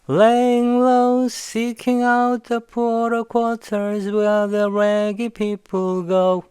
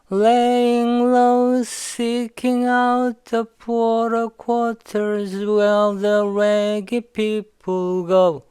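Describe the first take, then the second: First: The line is said quickly with words run together. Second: The line is said at a slower, careful pace. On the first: "빨리 하면요" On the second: "그럼 살짝 붙여볼게요"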